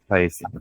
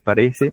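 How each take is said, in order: First: The r sound is left out. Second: The r sound is fully pronounced. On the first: "no pronunciar plenamente la vibrante" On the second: "en vez de"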